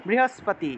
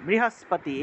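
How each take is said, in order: No difference in how they are said.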